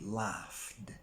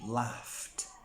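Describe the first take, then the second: First: The word ends with a D sound. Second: The word ends with a T sound. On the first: The speaker calls it wrong. "Let's try with a D" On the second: The speaker calls it right. "let's try with a T"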